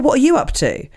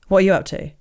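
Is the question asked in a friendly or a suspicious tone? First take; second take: friendly; suspicious. First: The question sounds light and friendly. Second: The question sounds pointed and suspicious. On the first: It is a casual friendly question. "But that's not how they said it" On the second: It implies the listener is not doing much. "because I was tired, I read it in a way of"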